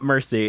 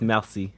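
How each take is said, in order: First: It sounds like the English word mercy. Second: It is said with a French pronunciation. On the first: The speaker calls it wrong. "it's not mercy" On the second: The speaker calls it right. "It's merci"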